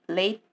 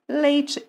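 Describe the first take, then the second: First: It is said in a Curitiba accent. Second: It is said in a northern Paraná accent. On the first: "Quem mora em Curitiba vai falar leite" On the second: "E a gente vai falar leite"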